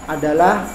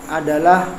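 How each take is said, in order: Both takes have the same delivery.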